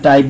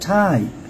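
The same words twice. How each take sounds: First: The first consonant has no puff of air. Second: The first consonant has a strong puff of air. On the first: The speaker calls it wrong. "আমরা টাইপ বলবো না" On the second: The speaker calls it right. "টাইপ অর্থাৎ aspirated হয়ে যাচ্ছে"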